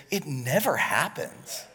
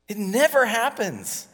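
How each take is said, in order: First: Said in the usual way. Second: "never" punched higher and louder; stressed repeat. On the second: Shown as a demonstration. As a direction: hit "never" hard the second time. Repeated for emphasis.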